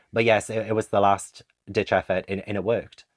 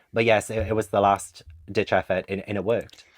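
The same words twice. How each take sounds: The two takes are said the same way.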